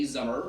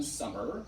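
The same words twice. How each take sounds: First: "zummer" with a buzzing z instead of s; Wiltshire zummer. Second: Said in the usual way. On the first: Shown as a demonstration. Wiltshire native showing local pronunciation, "zummer" with z. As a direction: say "zummer", Wiltshire rural style with voiced z. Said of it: "We say". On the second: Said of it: "rather than".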